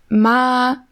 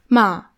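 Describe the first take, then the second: First: The pitch stays level throughout. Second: The pitch falls like a statement. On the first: "einmal gleichbleibend" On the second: "und dann nochmal so nach unten"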